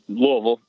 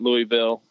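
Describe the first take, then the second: First: The name is said slurred and clipped. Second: The name is said with its syllables fully sounded. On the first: The speaker is a local. The speaker calls it right. "If you live here, it's Louisville. You got to like say it as if you've been drinking bourbon" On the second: The speaker is not a local. The speaker calls it wrong. "not Louisville or any of the other 50 ways"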